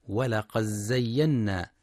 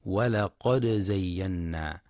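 First: ولقد زينا with the د merged into the ز; wrong merged d. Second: ولقد زينا with the د sounded clearly and given a light bounce; clear d with echo. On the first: Teacher shows the wrong reading, د merged into ز. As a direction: run ولقد زينا together so the د melts into the ز. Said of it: "بإدغام الدال في الزاي". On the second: Teacher shows the correct Hafs reading, د clearly bounced. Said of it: "لإظهار الدال مع القلقلة". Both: Shown as a demonstration.

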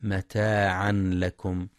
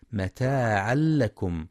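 First: متاعا لكم with a clear ن before ل; wrong izhar. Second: متاعا لكم with ن merged into a doubled ل, no nasal; idgham without ghunna. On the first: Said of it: "بالإظهار". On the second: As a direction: join متاعا لكم as one ل. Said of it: "للإدغام بغير غنة". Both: Shown as a demonstration.

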